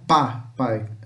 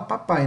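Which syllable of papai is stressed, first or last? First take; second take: first; last. First: The stress is on the first syllable. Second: The stress is on the last syllable. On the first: The speaker calls it wrong. "não" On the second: The speaker calls it right. "A gente dá mais ênfase aqui no final"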